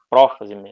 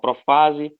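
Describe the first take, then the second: First: The stress is on the first syllable. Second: The stress is on the second syllable. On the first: "Em português a gente fala" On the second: "A pronúncia costuma variar"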